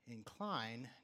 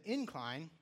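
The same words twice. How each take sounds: First: The stress is on the second syllable. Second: The stress is on the first syllable. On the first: It is a different word, meaning to lean toward. "when you put the emphasis on the second syllable" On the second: It means a hill or a rise in the grade. "that is talking about a gradual, or maybe not so gradual, but a hill"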